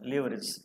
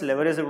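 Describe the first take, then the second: First: The first vowel is a long 'ee' sound. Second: The first vowel is a short 'eh' sound. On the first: "దీన్ని లీవరేజ్ అని రాసి ఉంటుంది" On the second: "Americans లెవరేజ్ కూడా అంటారు"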